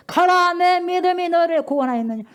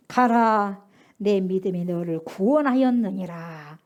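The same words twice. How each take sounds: First: Proclaiming loudly. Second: Low, slow solemn words; solemn blessing. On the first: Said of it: "바로". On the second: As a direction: pronounce the healing calmly and gravely. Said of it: "예수께서 이르시되". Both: Acted.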